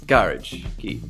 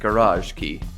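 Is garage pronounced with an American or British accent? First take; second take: British; American. First: Garage is said with a British pronunciation. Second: Garage is said with an American pronunciation. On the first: "If you prefer British English" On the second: "if your uh, focus is on American English"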